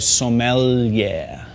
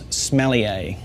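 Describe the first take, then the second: First: It sounds like so-m-yeah with a held L. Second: It sounds like the word smellier. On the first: The speaker calls it right. "so you go sommelier" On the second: The speaker calls it wrong. "the second way not to pronounce it"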